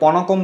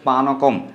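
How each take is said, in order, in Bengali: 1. প্রথম স্বরধ্বনিটি 'o'-এর মতো শোনায়। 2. প্রথম স্বরধ্বনিটি 'a'-এর মতো শোনায়। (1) "এটিকে অনেকে পনকম বলে থাকে" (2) "কিন্তু এটির উচ্চারণ হচ্ছে পানকম"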